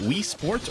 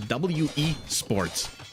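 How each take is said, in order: First: The first part is said as one word. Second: The first part is spelled as two letters. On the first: "is it the word Wii?" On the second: "Is it two letters"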